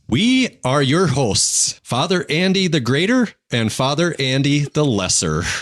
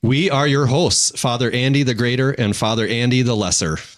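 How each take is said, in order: First: It is said in a light, playful way. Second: It is said in a more serious way. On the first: "With different inflections" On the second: "Should probably do someone halfway serious"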